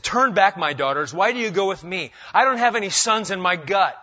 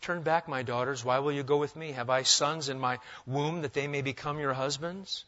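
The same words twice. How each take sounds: First: Louder, higher, sharp scolding; rebuke. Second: Nice way. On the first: Naomi rebuking her daughters-in-law, sharply. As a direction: rebuke them, send them home firmly. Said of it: "but it's really a rebuke". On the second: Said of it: "now you could read it in maybe a nice way. I'll try that first". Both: Shown as a demonstration.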